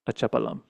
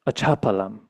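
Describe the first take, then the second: First: The ch sound is said without aspiration. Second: The ch sound is said with aspiration. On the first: The speaker calls it wrong. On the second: The speaker calls it right.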